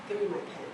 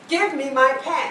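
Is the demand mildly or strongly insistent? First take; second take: mildly; strongly. First: It is said with mild insistence. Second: It is said with stronger insistence.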